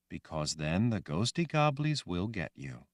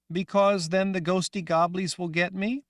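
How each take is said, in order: First: Calm reassurance. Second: Put-on high, loud young girl voice; childlike Rachel. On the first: Acted. Woman answers gently. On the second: Girl Rachel asking the woman, high and loud. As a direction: sound like a scared little girl.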